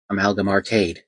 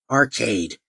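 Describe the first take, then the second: First: Said in the usual way. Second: Arcade? sneered with a falling scoff; mocking. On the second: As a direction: drop Arcade? like it's a silly word. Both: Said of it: "with an unimpressed yet mocking tone".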